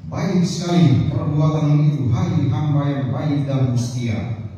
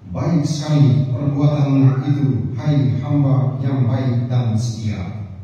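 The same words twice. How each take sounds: No difference in how they are said.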